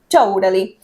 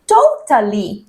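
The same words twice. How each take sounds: First: The middle T sounds like a quick R. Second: The middle T is a clear T sound. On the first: This is how Americans usually say it. "lo pronuncian más como una R" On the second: This is closer to how the British say it. "si querés marcar la T"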